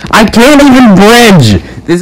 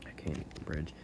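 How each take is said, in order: First: Much louder and higher, shouting it out; exasperated gamer scream; frustrated yell. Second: Muttered under the breath, much softer; frustrated low mumble before exploding; quiet mutter. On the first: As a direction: blow up at the game. Frustrated gamer yells same line. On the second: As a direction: say it to yourself, barely aloud. Mutters then yells same line. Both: Real, not acted.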